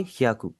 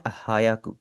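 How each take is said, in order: First: ह्याकु with hya as one glided syllable, no a between; correct pronunciation. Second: हायाकु with a full separate ha-ya, three syllables; wrong pronunciation. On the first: Teacher gives students the right version, hya in one glide. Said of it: "directly आवाज आनी चाहिए". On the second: Teacher shows students the common mistake, hayaku in three syllables. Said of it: "लोग हैं ना वो इसे pronounce करते हैं". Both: Shown as a demonstration.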